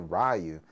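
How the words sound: The name is said with an American pronunciation. "Americans say Ryu"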